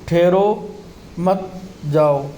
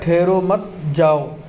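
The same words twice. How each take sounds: First: The pause comes after ठहरो. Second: The pause comes after मत.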